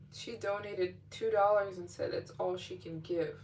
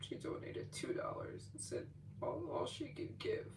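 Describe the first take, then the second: First: Said in the usual way. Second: Hushed whisper, softer. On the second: Real, not acted. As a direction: whisper it like a tender secret. Retelling the small donation.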